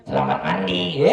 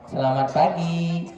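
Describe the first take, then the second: First: Put-on a low, cheeky puppet boy getting the greeting wrong. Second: Said in the usual way. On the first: Ventriloquist's puppet Ucup mangles the greeting, low voice. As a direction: drop the voice low like a naughty puppet. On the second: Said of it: "Manggil yang sopan tuh kayak gini".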